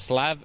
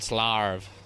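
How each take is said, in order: First: The vowel is plain with no r sound. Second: The vowel is drawn out with an r sound. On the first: "So there's Slav" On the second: "S L A, and then four R's V"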